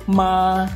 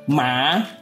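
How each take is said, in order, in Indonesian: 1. Nada tetap tinggi, datar, dan panjang. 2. Nada naik dari tengah ke tinggi. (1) "Nada pertama adalah nada suara tinggi, datar, dan panjang" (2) "Nada kedua adalah nada tengah ke nada tinggi"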